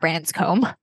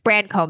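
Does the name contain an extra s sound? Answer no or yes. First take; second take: yes; no. First: The name is said with an added s sound. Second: The name is said without an added s sound. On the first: The speaker calls it wrong. "I keep adding an S to Brancombe" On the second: The speaker calls it right. "It's Brancombe"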